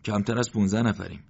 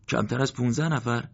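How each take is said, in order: First: Said in the usual way. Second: Higher, stunned echo of the number; a commander hearing his losses, disbelieving; stunned disbelief. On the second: A narrator's reading. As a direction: repeat it as if you can't believe it. Morteza repeats the count, stunned.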